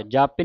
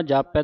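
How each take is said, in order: First: ਜਾਪੇ ending in closed 'ay'; wrong reading. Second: ਜਾਪੈ ending in open 'ai'; correct reading. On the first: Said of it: "ਜਾਪੇ ਨਹੀਂ ਪੜ੍ਹਨਾ". (ਜਾਪੇ, ਲਾਂ ਵਾਲਾ ਉਚਾਰਨ) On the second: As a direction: say ਜਾਪੈ as ja-pai. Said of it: "ਜਾਪੈ ਦਲਾਵਾਂ ਦੇ ਨਾਲ". (ਜਾਪੈ, ਦਲਾਵਾਂ ਨਾਲ ਉਚਾਰਨ) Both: Shown as a demonstration.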